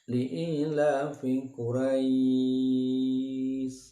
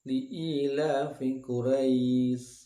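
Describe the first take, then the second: First: The final vowel is held for four beats. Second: The final vowel is held for two beats. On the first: "Dibaca empat harokat" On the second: "Dua harokat"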